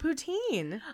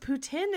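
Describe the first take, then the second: First: The word is said the American way. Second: The word is said the Quebecois way. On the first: The speaker calls it wrong. "and not poutine" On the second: The speaker calls it right. "it's pronounced poutine"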